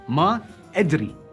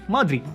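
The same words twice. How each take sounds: First: It is said as two separate words. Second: The two words are fused into one.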